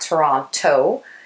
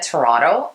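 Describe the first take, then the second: First: The name is said the way non-locals say it. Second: The name is said the way locals say it.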